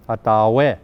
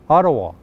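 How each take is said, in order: First: It is said with the original Indigenous pronunciation. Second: It is said with the usual anglicized pronunciation. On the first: This is the original form of the name. "The proper pronunciation is" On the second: This is how most people say the city name. "Our capital"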